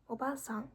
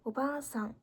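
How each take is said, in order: First: The middle vowel is short. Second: The middle vowel is held long. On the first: It means middle-aged woman. "그런데 오바상 하면 아주머니가 됩니다" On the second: It means grandmother. "여기도 장음이죠"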